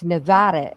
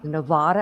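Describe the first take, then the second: First: It uses the pronunciation locals give the name. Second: It uses the pronunciation outsiders give the name. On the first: This is how people nearby say it. The speaker calls it right. "It's Nevada" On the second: This is how people from elsewhere say it. The speaker calls it wrong. "instead of Nevada"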